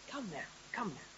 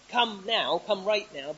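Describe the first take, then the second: First: It is said in a warm, gentle tone. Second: It is said in a sharp, demanding tone.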